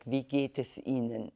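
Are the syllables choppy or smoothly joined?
smooth. Each syllable is clear but joined melodically.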